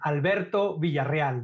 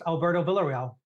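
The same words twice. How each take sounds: First: It is said with a Spanish accent. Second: It is said with an American accent.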